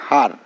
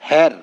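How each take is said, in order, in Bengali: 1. স্বরধ্বনিটি 'car' এর 'a' এর মতো শোনায়। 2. স্বরধ্বনিটি 'hat' এর 'a' এর মতো শোনায়। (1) "আমরা করি হার" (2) "তাহলে এইচ ই আর এর উচ্চারণ তো হওয়ার কথা ছিল হ্যার"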